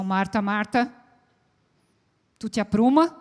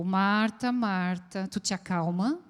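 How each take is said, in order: First: "Marta, Marta" called sharply, then "apruma" louder with a rising demand; impatient reprimand to a stressed woman; scolding tone. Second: Gentle reassurance to calm her down. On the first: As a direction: scold her to straighten up. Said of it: "A gente pode dar uma entonação". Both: Shown as a demonstration.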